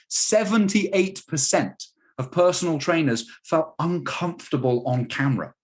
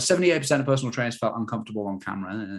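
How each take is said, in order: First: The statement is said with strong emphasis. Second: The statement is said flat and unemphasized. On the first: The fact is meant to stand out and be heard. The speaker calls it right. "I want you to hear that" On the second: The fact is buried among other information. The speaker calls it wrong. "I could bury that in amongst other"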